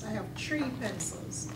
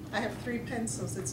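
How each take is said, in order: First: The word 'three' begins with a 't' sound. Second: The word 'three' begins with a 'th' sound. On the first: It is the Caribbean dialect form. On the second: It is the standard English form.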